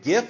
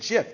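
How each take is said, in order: First: The word starts with a hard g sound. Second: The word starts with a j sound. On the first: "Some people pronounce it GIF" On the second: "Some people pronounce it JIF"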